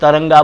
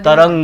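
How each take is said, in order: First: The word ends with an added 'a' vowel. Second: The word ends on the consonant 'g'. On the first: The speaker calls it wrong. "वो तरंगा बोलते हैं, ... तो गलत है" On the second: The speaker calls it right. "तरंग है"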